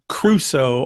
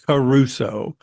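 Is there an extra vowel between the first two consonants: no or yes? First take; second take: no; yes. First: No vowel is heard between the K and R sounds. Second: A vowel is heard between the K and R sounds. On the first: The speaker calls it right. "Crusoe has no A between the C and the R" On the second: The speaker calls it wrong. "they would go Caruso. And it's not Caruso"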